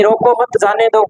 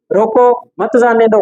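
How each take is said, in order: First: "रोको मत" together, brief break, then "जाने दो"; group रोको with मत, pause before जाने; comma after मत. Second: "रोको" alone, brief break, then "मत जाने दो"; comma after रोको. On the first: ("रोको मत" के बाद विराम) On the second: ("रोको" के बाद विराम) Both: Shown as a demonstration. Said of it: "एक कोमा आगे पीछे लगी है".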